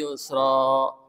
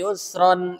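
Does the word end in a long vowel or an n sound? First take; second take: long vowel; n sound. First: It ends in a long vowel, then a breath. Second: It ends in an n sound, joined onward. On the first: The reader stops here. "Jadi kalau mau dibaca yusra pertama nih. ... Harus tarik nafas" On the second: The reader joins it to the next words. "Gimana bacanya kalau diwasol?"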